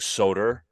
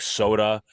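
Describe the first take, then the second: First: The word ends with an added r sound. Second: The word ends in a plain 'a' vowel. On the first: "some people with a New York accent tend to say" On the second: "things in end in A like soda"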